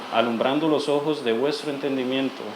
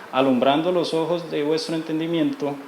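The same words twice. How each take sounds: Both takes have the same delivery.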